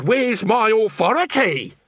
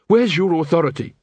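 First: High, slow sneering echo of the guard; mocking mimic. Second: Said in the usual way. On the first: Nobby mocking the guard's question back at him, sneering. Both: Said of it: "he says".

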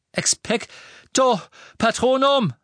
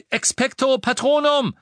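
First: Slow stretched incantation; drawn-out failing spell. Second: Quick, ringing incantation; confident spell. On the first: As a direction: strain to cast, unsure. Nichts passierte. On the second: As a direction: cast it with sure force. Silberner Otter brach. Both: Acted.

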